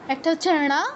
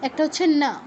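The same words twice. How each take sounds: First: ণা with tongue curled back to the ট position; retroflex ণ. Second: না with tongue tip on the upper teeth; dental ন. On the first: (ণা, মূর্ধন্য উচ্চারণে) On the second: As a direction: say না as an everyday dental n. (না, দন্ত্য উচ্চারণে) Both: Shown as a demonstration. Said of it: "দুইটা আলাদা অক্ষর".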